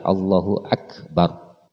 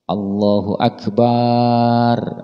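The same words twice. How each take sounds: First: The vowel after b in Akbar is one beat. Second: The vowel after b in Akbar is lengthened. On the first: Allah is the Greatest. The speaker calls it right. "Jangan dipanjangin. Satu ketukan aja" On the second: It changes the meaning to Allah is a drum. The speaker calls it wrong. "Tidak adanya memanjangkan baknya lafal akbar. ... enggak boleh"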